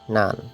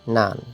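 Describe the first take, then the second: Both takes have the same delivery.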